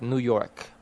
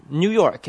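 First: "New" as "noo", American style; yod dropped. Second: "New" as "nyoo", higher and louder; no yod dropping. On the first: Showing the form people avoid, "New" as "noo". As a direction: say "New" with no y-glide in "New York". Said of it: "instead of". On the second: Showing the preferred Manila form, "New" as "nyoo". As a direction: say "New" with a y-glide in "New York". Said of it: "people prefer to say". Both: Shown as a demonstration.

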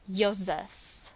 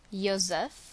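Both takes have the same delivery.

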